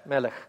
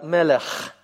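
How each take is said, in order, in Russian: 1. Конечный согласный — мягкий, придыхательный h. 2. Конечный согласный — шероховатый, хриплый фрикативный звук. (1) "они произносят этот звук просто как «хэ»" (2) "Более точно это «мелех». И вот этот вот звук такой вот грубый"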